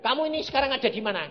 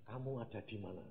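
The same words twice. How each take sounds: First: Loud, high, fast question; insistent retold question. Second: Soft, lower question; retold divine question. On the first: God presses the drowsy preacher, loudly insistent. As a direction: repeat it forcefully, rushing the words. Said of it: "saya ditanya". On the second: God questions the drowsy preacher, quietly retold. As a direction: ask it quietly, gently falling at the end. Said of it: "Lalu ditanya".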